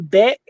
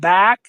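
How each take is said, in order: First: The vowel is pulled toward an 'e' sound. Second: The vowel is a plain, standard 'a' sound.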